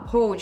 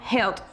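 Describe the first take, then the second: First: The vowel sounds like 'oh', as in hold. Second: The vowel sounds like 'eh', as in held. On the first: "ele não fala hold" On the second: "eles falam held"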